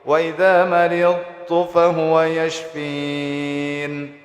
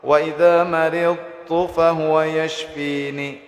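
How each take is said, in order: First: The last word ends on the bare n consonant. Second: The last word ends with a short i vowel. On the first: The reader stops at this point. "ketika waqaf" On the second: The reading continues without stopping. "contoh baris kasrah"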